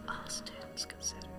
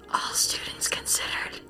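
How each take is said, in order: First: It is spoken in a normal voice. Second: It is spoken in a whisper.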